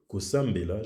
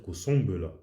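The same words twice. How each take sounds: First: "kosambela" with a fully sounded m before the b; doubled M. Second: "kosombela" with a nasal vowel instead of a sounded m; French nasal vowel. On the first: Comparing Lingala with Japanese, "kosambela" with a doubled m. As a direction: close the lips on a held m in "kosambela". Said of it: "il est doublé". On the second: Showing how not to say it, "kosombela" with a nasal vowel, no m. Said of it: "je vais pas dire". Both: Shown as a demonstration.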